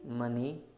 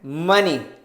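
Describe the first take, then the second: First: The word is said softly and quietly. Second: The word is said loudly and forcefully.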